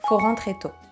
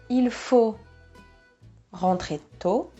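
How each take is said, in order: First: The sentence begins directly with faut. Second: The sentence begins with the word il.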